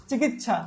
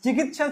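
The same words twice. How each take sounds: First: চিকিৎসা with a double chh, chikichchha; mutual assimilation. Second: Said in the usual way. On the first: Shown as a demonstration. Teacher giving an example of assimilation, চিকিৎসা said chikichchha. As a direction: merge the ts of চিকিৎসা into chchh. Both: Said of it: "অন্যান্য সমীভবন।".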